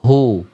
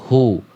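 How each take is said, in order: First: The u vowel is full and rounded. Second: The same.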